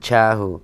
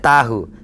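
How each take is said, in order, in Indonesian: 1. Diawali dengan bunyi mirip ch yang terdengar asing. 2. Diawali dengan bunyi t bahasa Indonesia yang biasa. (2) "Nggak ada tahu"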